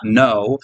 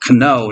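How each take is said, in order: First: The word starts with a plain N sound. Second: The word starts with a sounded K. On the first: This is how it is said today, with a silent K. "not no" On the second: This is how it was said in the Middle Ages. "what you would pronounce it kno"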